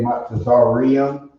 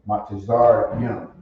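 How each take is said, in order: First: An extra 'ree' syllable is inserted before the ending. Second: No extra 'ree' syllable is inserted before the ending. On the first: The speaker calls it wrong. "they kind of throw in that re" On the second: The speaker calls it right. "when it's actually Matazar Young"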